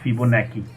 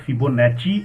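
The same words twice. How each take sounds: First: The double C is not said with ch. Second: The double C is said with a ch sound. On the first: The speaker calls it wrong. "and not Fibonacci" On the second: The speaker calls it right. "in Italy double C I is pronounced as Chi"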